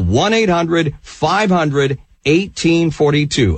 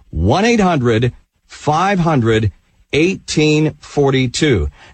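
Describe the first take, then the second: First: The number is said at normal speed. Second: The number is said slowly.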